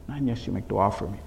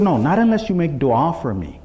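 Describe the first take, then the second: First: Low, soft repeated request; hushed plea. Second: Said in the usual way. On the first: Retold or imitated. Messenger asking Imam for dua, in a hushed plea. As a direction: drop to a quiet, humble appeal. Same condition repeated softly.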